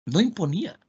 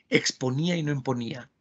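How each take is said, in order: First: "imponía" lifted high, ending on a rising tune; stress on no imponía. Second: Said in the usual way. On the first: Shown as a demonstration. Teacher repeating to students, stressing "No imponía" high. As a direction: lean hard on "No imponía", pitch climbing on "imponía".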